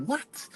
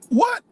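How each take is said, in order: First: Quiet, high, breathy disbelief; a hushed, high, disbelieving what; stunned what. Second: Gasp, then a squealed, very high and louder what; a gasping, shrieked disbelief; shocked what. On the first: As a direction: let it slip out, barely voiced and high. Hearing the migrant-cost rhetoric. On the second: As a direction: jump way up in pitch in outrage. Gasps at the rhetoric. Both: Retold or imitated.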